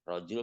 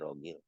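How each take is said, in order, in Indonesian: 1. Konsonan di tengah adalah bunyi j lembut. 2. Konsonan di tengah adalah bunyi g keras. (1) "Rojul kan jadi rogil" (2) "jadi rogil"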